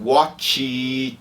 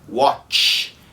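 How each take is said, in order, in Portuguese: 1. O som final é sonoro, com vibração das cordas vocais. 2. O som final é surdo, sem vibração das cordas vocais. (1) "daí vai ter vibração, mas é a pronúncia errada" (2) "ele não tem vibração"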